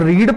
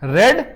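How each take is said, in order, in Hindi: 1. स्वर एक लंबी ई की ध्वनि है। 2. स्वर एक छोटी 'ए' (e) की ध्वनि है। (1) "उच्चारण में इसको रीड पढ़ते हैं" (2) "रेड पास्ट टेंस में"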